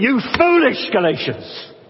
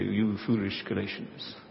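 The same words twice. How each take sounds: First: It is said in a lively, worked-up way. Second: It is said flatly and calmly.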